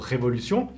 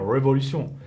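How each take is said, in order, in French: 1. Il est prononcé avec un R français. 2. Il est prononcé avec un R anglais. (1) "le mot révolution" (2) "sinon il va dire révolution"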